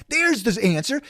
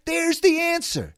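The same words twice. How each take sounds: First: Said in the usual way. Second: Much higher, slower on "the"; emphatic high repeat. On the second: Shown as a demonstration. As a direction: hammer "the answer" up high.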